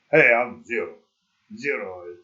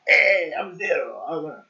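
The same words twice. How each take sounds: First: Spanish accent attempt. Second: Loud, cheesy fake Spanish accent as a cop; hammed-up Spanish-accented cop intro; awful Spanish accent. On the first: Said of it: "putting on, like, a weird". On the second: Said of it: "awful, like, Spanish accent?".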